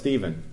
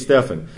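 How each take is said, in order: First: The middle consonant does not sound like an f. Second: The middle consonant sounds like an f. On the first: This is the usual form taught in Sunday school. "no, it's Stephen" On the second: This follows the Greek pronunciation. "In Greek it would be Stephen"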